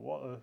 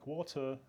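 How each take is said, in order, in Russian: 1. Британское произношение с глоттальной смычкой вместо t. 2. Британское произношение, гласная 'o' и без конечного r. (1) "вот с этим заглотал стопом" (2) "в Британии, соответственно, условно, стандартно звучит как «water»"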